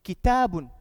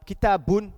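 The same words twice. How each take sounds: First: Kitabun with TA long and stressed; Kitabun, loud long TA, falling end; correct emphasis. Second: Kitabun with the final BUN pushed; kitabun, loud on its ending; misplaced emphasis. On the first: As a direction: lean on the middle of kitabun, let bun fall. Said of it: "see where the emphasis". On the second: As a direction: stress the last syllable of kitabun. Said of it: "you can't say". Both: Shown as a demonstration.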